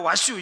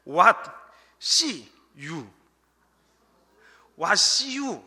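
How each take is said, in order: First: "What you" run together quickly as wa-shyu; said fast. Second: WHAT, SEE, YOU spaced out with pauses; slow, word by word. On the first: ("What you"를 와슈처럼 빠르게 붙여서) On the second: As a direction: pull "What see you" apart, each word distinct. ("What see you"를 한 단어씩 끊어서 천천히) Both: Shown as a demonstration. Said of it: "이 말을 빨리 하면".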